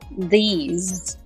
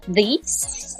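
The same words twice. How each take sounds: First: The word ends with a buzzing Z sound. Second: The word ends with a hissing S sound. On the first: The speaker calls it right. "but these" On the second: The speaker calls it wrong. "So it's not these"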